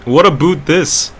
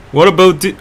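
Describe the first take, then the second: First: "about" said as "a-boot"; Canadian-style vowel. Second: Said in the usual way. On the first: Shown as a demonstration. Streamer asking if Canadians say about so, Canadian-style vowel. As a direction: say "about" with oo in place of ow. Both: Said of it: "do you say it like that?".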